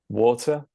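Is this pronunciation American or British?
British. It is said in a British accent. "starting with the British version"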